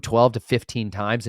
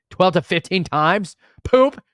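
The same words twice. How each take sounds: First: Said in the usual way. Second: High, loud and slowed down; incredulous shouted repeat. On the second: Real, not acted. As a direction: blurt it out in comic outrage.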